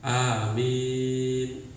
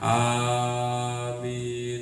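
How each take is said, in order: First: The second syllable's vowel is drawn out long. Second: The first syllable's vowel is drawn out long. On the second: This is how it is said locally. "Kalau di sini mungkin panjangnya A-nya"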